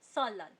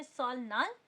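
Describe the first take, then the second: First: सोलाल with l-n merged into l; as pronounced. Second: सोल नाल in two parts, with l then n; as written. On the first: Teacher shows how it is read, सोलाल with only l. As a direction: run सोलाल together on a long l. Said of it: "लेकिन हम लोग इसे पढ़ेंगे". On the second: Teacher reads out the spelling, सोल नाल with l-n. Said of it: "इसको हम लोग लिखते हैं". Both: Shown as a demonstration.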